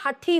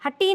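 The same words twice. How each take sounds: First: हठी with aspirated "ठ"; हठी said as "hathee"; correct pronunciation. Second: हठी with unaspirated "ट"; higher हठी said as "hatee"; no puff of air in हठी; wrong pronunciation. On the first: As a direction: puff of air on the ठ in हठी. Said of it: "हठी होता है". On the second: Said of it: "हठी नहीं होता". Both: Shown as a demonstration.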